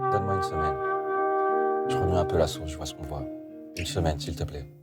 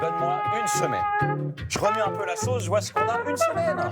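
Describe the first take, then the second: First: It is said with a tense, suspenseful mood. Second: It is said with a happy, joyful mood.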